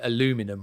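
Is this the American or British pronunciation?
American. It has four syllables, without the extra sound. The speaker calls it wrong. "Americans say aluminum"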